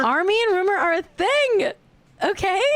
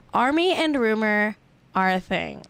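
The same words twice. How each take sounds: First: Much higher, emphatic gossip insistence; excitedly telling co-host the celebrity couple news. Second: Said in the usual way. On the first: Acted.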